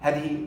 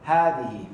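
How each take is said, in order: First: The first vowel is short. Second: The first vowel is long. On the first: The speaker calls it wrong. "we don't say هذه" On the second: The speaker calls it right. "we say هذه"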